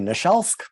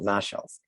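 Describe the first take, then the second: First: The stress is not on the first syllable. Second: The stress is on the first syllable. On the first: This is the English way of saying it. "in English we say Naszelsk" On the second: This is the Polish way of saying it. "Polish, they tend to emphasize the first syllable"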